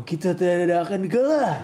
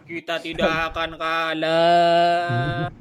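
First: Rousing, loud battle cry; fighter hype. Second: Slow, drawn-out dramatic anime line; anime voice actor. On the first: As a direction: read it like a fighter psyching up. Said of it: "Bacanya, bacanya yang semangat". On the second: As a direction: declaim it like an anime hero. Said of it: "Kayak pengisi suara anime lu". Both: Shown as a demonstration.

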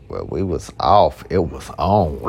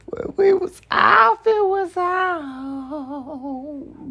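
First: Said in the usual way. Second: Much higher, slow falsetto repeat; high mock sing-song. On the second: Real, not acted. Teasing line repeated up high, falsetto.

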